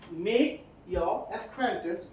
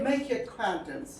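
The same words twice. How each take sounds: First: The word 'your' is said in full form. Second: The word 'your' is said in weak form. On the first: The speaker calls it wrong. "You should not speak like that" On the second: The speaker calls it right. "make a weak form of your"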